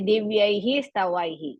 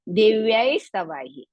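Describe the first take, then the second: First: The first word ends with an echoed 'hi'. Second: The first word ends with an 's' sound. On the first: The speaker calls it wrong. "You should not say Divyaihi Stavaihi" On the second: The speaker calls it right. "You have to say Divyais Stavaihi"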